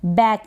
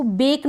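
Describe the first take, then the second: First: बैक with an open "ae" vowel; सही उच्चारण demo. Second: बेक with a long "ay" vowel; mispronunciation demo. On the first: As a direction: say बैक to rhyme with English "back". (बैक में ऐ की मात्रा) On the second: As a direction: say बेक like English "bake". (बेक में ए की मात्रा) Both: Shown as a demonstration. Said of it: "इसको बेक ना पढ़ें".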